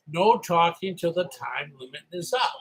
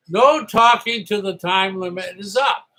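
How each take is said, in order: First: Said in the usual way. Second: Called out loud and firm; loud firm rule call; loud announcement. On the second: Retold or imitated. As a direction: bark the rule at the whole room. Clark Kent quote, announced rule.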